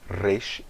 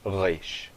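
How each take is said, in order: First: The r is a light tongue tap. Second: The r is a guttural throat sound. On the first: The speaker calls it right. "eu vou pronunciar como resh" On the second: The speaker calls it wrong. "e não resh"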